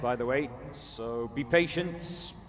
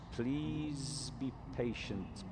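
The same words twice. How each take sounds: First: Said in the usual way. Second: Softer, slow coaxing request; gentle plea. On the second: Real, not acted. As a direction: soothe the waiting fans.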